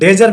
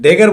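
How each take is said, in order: First: The middle consonant is a soft j sound. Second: The middle consonant is a hard g sound. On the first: The speaker calls it wrong. "डेजर नहीं बोलेंगे" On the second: The speaker calls it right. "डेगर बोलेंगे"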